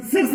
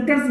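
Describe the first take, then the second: First: सर्स said with an s sound, the wrong way; wrong soft c. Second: कर्स said with a k sound, the right way; hard c. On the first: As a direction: start सर्स with s, as the mistake to avoid. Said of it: "सर्स नहीं बोलते". (सर्स को स की ध्वनि से, गलत उच्चारण) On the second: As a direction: start कर्स with a clear k. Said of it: "कर्स बोलते". (कर्स को क की ध्वनि से, सही उच्चारण) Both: Shown as a demonstration.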